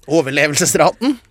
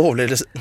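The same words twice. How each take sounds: First: "overlevelsesraten" completed syllable by syllable; careful retake. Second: "overlevelse-" slurred and cut off; stumbling on the word. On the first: Storyteller retrying a word they are bad at, careful full "overlevelsesraten". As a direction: get through all of "overlevelsesraten" cleanly. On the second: Storyteller struggling with a hard word, stumbled "overlevelse-". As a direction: fumble "overlevelse-", middle syllables lost. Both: Real, not acted. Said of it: "ikke et ord jeg er god med".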